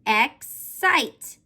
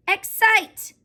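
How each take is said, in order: First: "Excite" split by a clear gap, EX, SITE; syllable by syllable. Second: "Excite" joined as one word, high-pitched; syllables blended. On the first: Teacher sounding it out for the class, "Excite" in two parts. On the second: Teacher giving the class the finished word, "Excite" blended and higher. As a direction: say "Excite" straight through, ex-SITE, brightly raised. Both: Shown as a demonstration. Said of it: "Let's put the syllables together".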